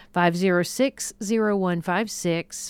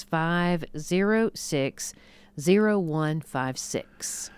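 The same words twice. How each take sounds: First: Said in the usual way. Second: Five zero six, zero one five six spelled out digit by digit, slowly; slow, careful number read. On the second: Shown as a demonstration. Host repeats the phone number slowly for radio listeners. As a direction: read the number back slowly so callers can write it down.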